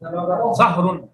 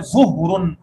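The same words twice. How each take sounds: First: ज़हरुन with an open a after the z, slow; ज़हरुन with fatha on zoe. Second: ज़ुहरुन with a rounded u after the z; ज़ुहरुन with damma on zoe. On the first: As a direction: say ज़हरुन, zoe carrying zabar. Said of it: "जोए को जबर है यहाँ". (जोए पर जबर के साथ ज़हरुन) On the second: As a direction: say ज़ुहरुन, zoe carrying pesh. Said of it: "जोए को पेश दे दिया". (जोए पर पेश के साथ ज़ुहरुन) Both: Shown as a demonstration.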